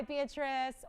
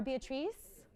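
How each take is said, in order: First: Short, weak last vowel in "Beatrice"; English pronunciation. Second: "Beatrice" ending in a long "-treece"; long ee in the last syllable of "Beatrice"; alternative pronunciation. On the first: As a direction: say "Beatrice" as BEE-uh-truss. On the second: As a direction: ask "Beatrice" as bee-uh-TREECE, rising. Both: Shown as a demonstration. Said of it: "or Beatrice?".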